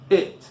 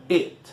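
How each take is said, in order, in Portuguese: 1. A vogal é curta e relaxada. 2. A vogal é curta e relaxada.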